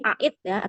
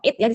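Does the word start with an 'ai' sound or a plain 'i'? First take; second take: ai sound; plain i. First: The word begins with an 'ai' diphthong. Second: The word begins with a plain 'i' vowel. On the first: The speaker calls it wrong. "di sini aitnya nggak dibaca" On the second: The speaker calls it right. "langsung it ya"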